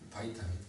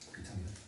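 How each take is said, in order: First: The first syllable is said as 'bai'. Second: The first syllable is said as plain 'bi'. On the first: This mimics the English pronunciation. "영어 발음 살리자고 바이" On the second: This is the older Korean school reading. "비타민으로 외우면 안 외워진다고"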